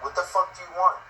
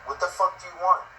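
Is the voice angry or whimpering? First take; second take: angry; angry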